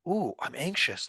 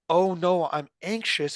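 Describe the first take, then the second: First: It sounds curious and intrigued. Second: It sounds worried and dismayed.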